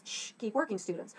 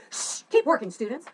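First: Gently shushing the class; a kind, patient teacher's hush; soft, patient reminder to keep working. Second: Sharp, loud, higher shush; impatient, rude teacher scolding. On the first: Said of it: "I wanted to make sure that this teacher was kind". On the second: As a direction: snap at the class to get back to work. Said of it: "didn't want the teacher to come off like". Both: Shown as a demonstration.

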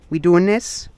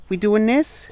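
First: High playful dog talk; squeaky praising a dog. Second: Even higher squeaky question; squeaky praising a dog. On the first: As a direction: ask the dog playfully, pitched up. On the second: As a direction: push it up into a squeak. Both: Real, not acted. Talking to the dogs.

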